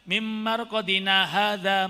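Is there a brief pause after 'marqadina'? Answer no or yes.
no. 'Marqadina' runs straight on without any stop. The speaker calls it wrong. "Nah yang seringnya kan enggak"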